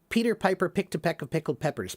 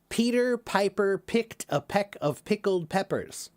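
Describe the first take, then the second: First: It is said quickly, in rapid repetition. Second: It is said at a normal, unhurried pace.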